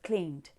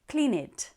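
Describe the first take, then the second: First: The ending adds no extra syllable. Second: The ending adds an extra syllable, "id". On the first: The speaker calls it right. "instead of" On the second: The speaker calls it wrong. "you hear people say things like"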